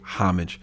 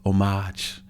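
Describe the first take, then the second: First: The word begins with an audible H sound. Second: The word begins without any H sound. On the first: "we pronounce the H" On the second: "you don't pronounce the H"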